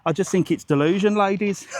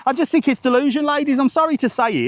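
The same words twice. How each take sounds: First: Said in the usual way. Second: Higher and louder, mock-preachy on "delusion, ladies"; playful exaggerated declaration; emphatic higher retake. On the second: Shown as a demonstration. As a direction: push it up and out like a punchline. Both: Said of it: "repeated louder and higher".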